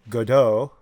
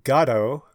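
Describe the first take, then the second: First: Neither syllable is stressed more than the other. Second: The stress is on the first syllable. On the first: This is the French way. "it is an unaccented language, so you would say Godot" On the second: This is the usual British way. "with the accent on the front"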